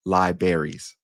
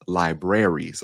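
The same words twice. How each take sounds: First: "libraries" said as "lie-berries"; dropped first R. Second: "libraries" slowly as "lie-brare-ees"; both Rs sounded. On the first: Showing a common mispronunciation, "libraries" as lie-berries. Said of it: "they pronounce it as". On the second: Correcting the common slip, "libraries" with both Rs. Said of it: "we forget that other R". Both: Shown as a demonstration.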